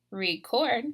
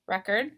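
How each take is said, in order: First: "record" as the verb, ree-KORD; "record" with a full, stressed second syllable; last-syllable stress. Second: "record" as the noun, REK-erd; "record" with a weak second syllable; first-syllable stress. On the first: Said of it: "but there is a difference". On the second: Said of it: "in the noun column". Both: Shown as a demonstration.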